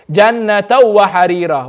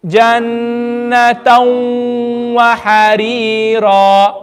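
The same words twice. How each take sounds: First: Jannatan wa harira at normal speed, no nasal hum on the merge; without ghunna. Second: Jannatan wa harira slowly, noon merged into waw with nasal hum; with ghunna. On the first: Teacher shows the wrong reading, no ghunna. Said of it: "That's without ghunna". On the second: Teacher leads the class, slow ghunna recitation. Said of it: "read the waw with ghunna". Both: Shown as a demonstration.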